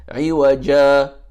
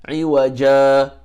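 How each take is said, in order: No difference in how they are said.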